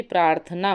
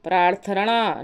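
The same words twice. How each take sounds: First: प्रार्थना with dental n; plain n in प्रार्थना; correct form. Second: प्रार्थना with retroflex ṇ and extra vowel; wrong form. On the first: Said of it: "बल्कि प्रार्थना होता है". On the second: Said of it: "प्रार्थना नहीं होता है". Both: Shown as a demonstration.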